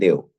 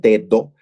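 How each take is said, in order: First: The middle d sound is left out. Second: The middle d sound is clearly pronounced. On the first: "dicen deo" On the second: "en vez de decir dedo"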